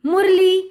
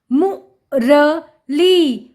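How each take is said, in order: First: Said in the usual way. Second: मु, र, ली slow and separate; sounding out. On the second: Shown as a demonstration. Teacher reading to children, syllable by syllable. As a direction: split it into मु... र... ली. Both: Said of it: "उच्चारण करके पढ़ लिया".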